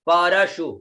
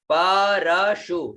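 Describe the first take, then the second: First: Said in the usual way. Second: परशु drawn out slowly, each syllable apart. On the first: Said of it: "उसके पश्चात परशु". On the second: Shown as a demonstration. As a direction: sound out परशु very slowly, short u at the end. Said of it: "श में छोटी उ की मात्रा".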